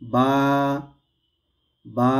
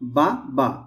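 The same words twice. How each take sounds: First: The sound is stretched into one long vowel. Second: Two short syllables are said quickly. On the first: This is a vowel lengthened by one alif. "দুইটার পরিমাণ যদি লম্বা করি" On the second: These are two short vowel marks. "হরকত উচ্চারণ তাড়াতাড়ি হয়"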